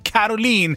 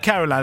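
First: The name is pronounced a non-English way. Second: The name is pronounced the English way. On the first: The speaker calls it right. "det är Caroline" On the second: The speaker calls it wrong. "Det är inte på engelska, visst? Det är inte Caroline"

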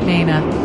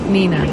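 First: The first vowel sounds like 'ah'. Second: The first vowel sounds like 'ee'. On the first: The speaker calls it wrong. "not Nana" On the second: The speaker calls it right. "Nina, not Nana"

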